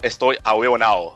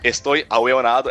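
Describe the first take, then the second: First: The last word drops the d, ending in ao. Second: The last word ends with a clear d sound. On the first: "palavras terminadas em ado vira ao" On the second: "palavras terminadas em ado vira ao"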